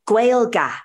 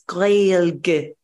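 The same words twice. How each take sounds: First: The word is said with flat anglicized sounds. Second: The word is said with full native Irish sounds. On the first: The speaker calls it wrong. "Some people might be like, oh, Gaeilge" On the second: The speaker calls it right. "It's Gaeilge"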